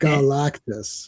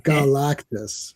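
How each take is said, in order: First: The name is said as Galactus. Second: The name is said as Galactus.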